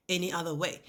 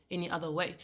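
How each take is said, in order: Both takes have the same delivery.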